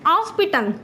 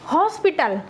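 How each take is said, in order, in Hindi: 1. यह शब्द स्वर से शुरू होता है; 'h' मौन है। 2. यह शब्द उच्चारित 'h' ध्वनि से शुरू होता है। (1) "but out of India we will read it" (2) "according to India"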